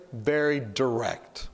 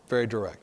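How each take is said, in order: First: Very drawn out slowly, direct pressed home; slow emphatic stress. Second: Said in the usual way. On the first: Shown as a demonstration. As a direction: stretch out very and lean on direct, slowly. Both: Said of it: "He's very".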